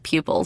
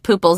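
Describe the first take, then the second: First: The first syllable is said as pyoo, with y. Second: The first syllable is said as poo, without y. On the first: The speaker calls it right. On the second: The speaker calls it wrong.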